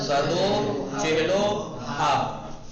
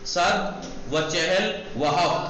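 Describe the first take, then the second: First: Each 'and' is a joined 'o' sound. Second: Each 'and' is a separate 'va'. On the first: "पढ़ा कैसे गया? ... ऐसे पढ़ा गया" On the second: "ऐसे लिखा गया"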